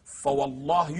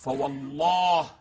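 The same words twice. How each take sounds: First: Said in the usual way. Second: Slow, drawn-out intoned oath; recited oath. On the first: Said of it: "يقسم علي أمير المؤمنين". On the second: Shown as a demonstration. Lecturer quoting the Imam's oath to the host, slow intoned recitation. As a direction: draw the oath out slowly, as scripture. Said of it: "فوالله، يقسم علي أمير المؤمنين".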